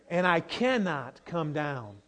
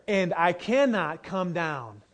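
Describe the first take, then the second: No difference in how they are said.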